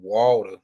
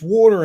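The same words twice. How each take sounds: First: It is said in a New Orleans accent. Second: It is said in a general American accent. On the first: "that's how they pronounce it in in New Orleans" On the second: "It's water in most of, you know, how you pronounce it"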